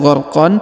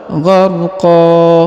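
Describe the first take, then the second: First: The word ends with an n sound. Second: The word ends with a long a vowel. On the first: The speaker calls it wrong. "bukan gharqan" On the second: The speaker calls it right. "tapi gharqa"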